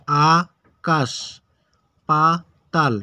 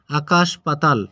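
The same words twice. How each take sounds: First: আকাশ পাতাল very slow, four syllables with long gaps; broken into syllables. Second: Said in the usual way. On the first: Shown as a demonstration. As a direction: stretch and separate each syllable of আকাশ পাতাল. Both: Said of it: "এটা ভেঙে উচ্চারণ".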